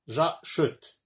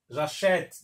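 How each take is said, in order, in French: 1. La voyelle après ch est faible ou muette. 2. La voyelle après ch est un è ouvert. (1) "لا يمكن أن أقول" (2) "Non, j'achète. Donc j'ajoute un accent grave"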